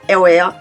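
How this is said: The R is a mix of R and W. The speaker calls it right. "genre R E R ... c'est que vous avez l'accent"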